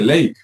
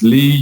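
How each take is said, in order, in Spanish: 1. La vocal suena como 'lay'. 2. La vocal suena como 'lee'. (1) "para nosotros dice ley" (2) "allá en Estados Unidos son las líneas Lee"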